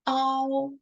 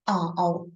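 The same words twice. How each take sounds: First: The pitch stays high and level. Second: The pitch dips low and comes back up.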